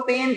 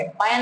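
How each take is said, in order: First: पेन said with a short, quick e; पेन with a clipped e, not ai; short e sound. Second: पैन said with an open ai vowel; पैन with a wide ae vowel; wrong ai sound. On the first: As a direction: say पेन briskly, like English pen. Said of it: "अब इसको हम लोग पेन पढ़ेंगे". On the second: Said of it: "पैन नहीं पढ़ेंगे". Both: Shown as a demonstration.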